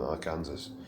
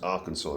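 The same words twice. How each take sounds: First: The word ends like the name 'Kansas'. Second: The word ends with a 'saw' sound. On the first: The speaker calls it wrong. "rather than Arkansas" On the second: The speaker calls it right. "is pronounced Arkansas"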